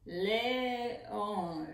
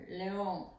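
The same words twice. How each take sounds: First: Le-ón, stretched slowly syllable by syllable; split into syllables. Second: Said in the usual way. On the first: Shown as a demonstration. Teacher to pupils, counting syllables, slow split. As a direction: tap out each syllable of "León" slowly. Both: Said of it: "¿Cuántas sílabas tiene la palabra león?".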